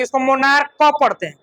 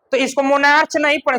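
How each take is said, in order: First: मोनार्क said with a hard k ending; correct pronunciation. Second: मोनार्च said with a ch ending, marked as wrong; wrong pronunciation. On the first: Teacher shows students the right reading of monarch. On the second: Teacher shows students the wrong reading of monarch. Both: Shown as a demonstration. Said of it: "च नहीं पढ़ेंगे".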